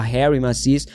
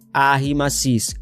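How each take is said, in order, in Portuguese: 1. O primeiro nome começa com som de H. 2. O primeiro nome começa sem som de H. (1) "eu mesmo falava Harry Macis, é, até porque é, se escreve como se fosse Harry Potter" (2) "mas a pronúncia não é Harry, pelo menos não dele, a pronúncia é Arry Macis"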